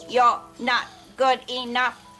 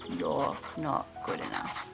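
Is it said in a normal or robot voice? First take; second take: robot; normal. First: It is said in a robot voice. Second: It is said in a normal voice.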